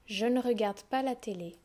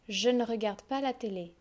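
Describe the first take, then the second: Both takes have the same delivery.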